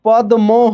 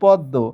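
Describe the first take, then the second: First: A d is followed by an m sound. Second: No m sound; the d is doubled. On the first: This is how the letters read literally. "পদ্ম হওয়ার কথা" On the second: This is how people actually say it. "কিন্তু হয়েছে পদ্ম"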